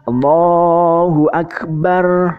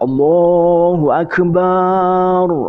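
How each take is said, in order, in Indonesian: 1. Vokal setelah b pendek. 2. Vokal setelah b dipanjangkan. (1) "Ini harusnya pendek ya" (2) "masih memanjangkan uh, huruf ba-nya"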